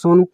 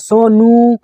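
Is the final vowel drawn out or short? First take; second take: short; drawn out. First: The final vowel is short and normal. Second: The final vowel is drawn out for long. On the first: The person is nearby. "अगर पास में है तो" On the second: The person is far away. "ऊ स्वर की जो ध्वनि है वो लगातार बढ़ रही है"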